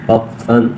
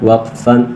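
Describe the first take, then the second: The two takes are said the same way.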